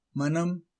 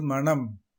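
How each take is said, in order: First: மனம் with light tongue-tip n; மனம், n not curled; correct ன. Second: மனம் with n curled into ண; மனம் with retroflex n; wrong ன. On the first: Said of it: "சரி". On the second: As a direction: say மனம் like மணம். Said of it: "தவறு". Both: Shown as a demonstration.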